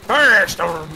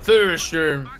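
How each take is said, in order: First: It is said in a pirate-like accent. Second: It is said in his ordinary accent.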